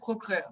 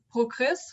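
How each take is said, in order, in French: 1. Aucun son S final n'est prononcé. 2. Le son S final est prononcé. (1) "pas S au fin" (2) "j'ai entendu"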